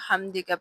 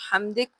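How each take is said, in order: First: The word ends with a short a vowel. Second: The word ends on a consonant, no vowel. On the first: The reciter continues without stopping. "अगर वक़्फ़ नहीं किया तो हम्दिका पढ़ेंगे" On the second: The reciter stops after this word. "अगर वक़्फ़ करेंगे तो हम्दिक पढ़ेंगे"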